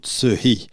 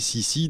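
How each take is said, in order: First: The name is said with a Chinese-style pronunciation. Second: The name is said with a French-style pronunciation. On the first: "la vraie prononciation en réalité serait plutôt Tsehi" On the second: "on va garder la version francisée"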